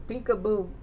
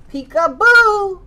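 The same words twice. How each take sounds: First: Said in the usual way. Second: High, loud, drawn-out peekaboo; playful peekaboo shout. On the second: Acted. Teacher to toddler, shouting peekaboo high and loud. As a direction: pop out to surprise the child.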